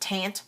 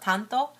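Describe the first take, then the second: First: The word ends on a 't' with no vowel. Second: The word ends with an 'o' vowel. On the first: This is another reading of the English spelling. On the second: This is the Japanese name. "in Japanese we call it"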